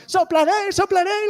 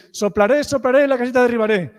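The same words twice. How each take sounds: First: High excited shout of the wolf's line; children shouting. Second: Fast rhythmic chant of Soplaré, soplaré, la casita derribaré; same words repeated. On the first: Retold or imitated. Children in the audience shouting along. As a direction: yell it out like a kid joining in. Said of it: "you were shouting". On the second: Shown as a demonstration. Storyteller repeating the wolf's refrain. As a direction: rattle off the fixed refrain quickly. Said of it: "use exactly the same words".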